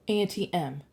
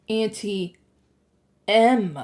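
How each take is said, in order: First: Said in the usual way. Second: "Auntie", a pause, then a loud "M"; dawning realization, "M" set apart and hit hard; stress on M. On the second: A narrator's reading. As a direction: split "Auntie M" in two, punching the M. Narrator realizes who Auntie M is.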